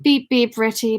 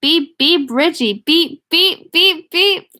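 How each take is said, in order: First: Put-on mildly solemn beeping, without the boyish pitch. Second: High, loud beeps rising as they go; high quavering boy. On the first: Ben teases Richie in his grown voice, solemnly. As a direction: say it with a touch of gravity. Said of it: "Ben said solemnly". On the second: Ben holds his nose to tease Richie, high boyish voice. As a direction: pipe up like a teasing boy. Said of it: "cried in a high, wavering, oh, quavering, boyish voice". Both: A narrator's reading.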